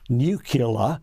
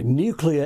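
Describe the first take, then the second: First: A vowel comes between the k and l. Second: The k runs straight into the l. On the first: The speaker calls it wrong. "offers nuclear as a second pronunciation because three American presidents" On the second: The speaker calls it right. "nuclear is the only correct pronunciation"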